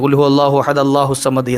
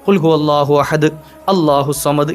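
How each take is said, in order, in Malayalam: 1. ahad നേരിട്ട് യാതൊരു ബന്ധവുമില്ലാതെ allahu വിലേക്ക് ചേരുന്നു. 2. ahad നും allahu വിനും ഇടയിൽ ഒരു നിർത്തലുണ്ട്. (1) "കൂട്ടി ഓതാറുണ്ട്... അത് തെറ്റാണ് കേട്ടോ" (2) "ഇങ്ങനെ നിർത്തി നിർത്തി ഓതാം"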